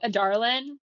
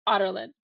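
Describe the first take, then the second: First: It starts like 'a darling' with a hard D. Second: It starts like the word 'otter'. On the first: "that's how I say it too, a darlin" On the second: "It's otter"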